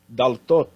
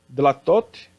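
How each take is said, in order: First: The first vowel comes before the l. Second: The first vowel comes after the l. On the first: This is the construct form. "Dlatot virou daltot" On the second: This is the plain plural form. "Dlatot virou daltot"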